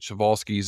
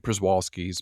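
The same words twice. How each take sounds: First: The name is said in a Polish-style pronunciation. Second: The name is said in an English-style pronunciation. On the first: This is the original pronunciation of the name. "is the proper Polish pronunciation" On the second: This is a common alternative way of saying it. "some say"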